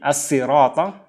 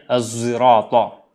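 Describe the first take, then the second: First: The word starts with a plain, light s sound. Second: The word starts with a voiced z sound. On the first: "dan kadang dibaca dengan sin" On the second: "dan kadang dibaca dengan zai"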